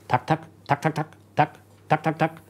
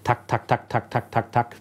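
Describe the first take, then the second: First: The beats come at uneven, irregular intervals. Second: The beats come quickly at an even pace. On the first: The heartbeat is irregular, often atrial fibrillation. "kommt es unregelmäßig" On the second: The heart beats fast but regularly. "wie so ein Maschinengewehr"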